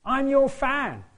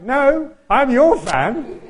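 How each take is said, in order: First: High excited call, YOUR stressed: "I'm your fan". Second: Loud, slow and laughing, "your" hit hard: "I'm your fan"; insisting back, laughing. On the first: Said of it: "calls out to me and says". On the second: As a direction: throw it back at him, leaning on "your". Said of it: "And I'm like". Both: Retold or imitated.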